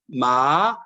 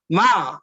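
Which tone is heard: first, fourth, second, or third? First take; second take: third; fourth. First: The pitch dips low, then rises. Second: The pitch falls sharply from high to low. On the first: It means horse. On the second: It means to scold.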